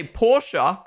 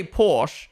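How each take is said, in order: First: Porsche said as POR-shuh; two-syllable Porsche. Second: Porsche said as PORSH, drawn out; one-syllable Porsche. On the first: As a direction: finish Porsche with an uh. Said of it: "I can pronounce it the proper way". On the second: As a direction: end Porsche on the sh. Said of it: "that's how that word's pronounced". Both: Shown as a demonstration.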